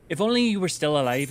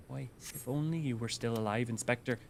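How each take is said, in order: First: Put-on tentative Cockney accent; shaky Cockney attempt. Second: Soft, failed Cockney attempt; Cockney slipping Midwestern. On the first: Streamer reading game dialogue, attempted Cockney. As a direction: try a Cockney lament, not quite landing it. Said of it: "don't know if I can do Cockney". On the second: Streamer retrying the Inspector line, Cockney sliding into Midwestern. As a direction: quietly try Cockney but drift into Midwestern. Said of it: "now I'm just going Midwestern".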